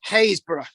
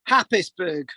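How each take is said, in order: First: It is pronounced 'Haysborough'. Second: It is pronounced as spelled, 'Happis-burgh'.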